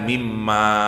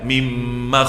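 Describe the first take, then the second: First: The final vowel is drawn out long. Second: The final vowel is clipped short. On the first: It suggests something grand. "mestinya alifnya panjang" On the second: It suggests something tiny and insignificant. "Maknya pendek"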